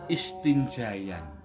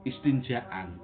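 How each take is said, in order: First: A y sound follows the long a. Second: A glottal stop follows the long a. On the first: The speaker calls it wrong. "tidak boleh dibaca istinjayan" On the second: The speaker calls it right. "diganti hamzah"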